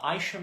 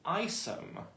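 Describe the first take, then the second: First: The middle of the name has an 'sh' sound. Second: The middle of the name has an 's' sound. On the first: This is how the name was first heard. "That's how I first heard his name pronounced" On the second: This is how people say it lately. "lately I've been hearing people pronounce it Isom"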